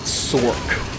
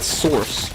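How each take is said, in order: First: The word ends with a k sound. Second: The word ends with an s sound. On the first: "people calling it Sork. Like, the C is a K?" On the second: "I've always called it Source"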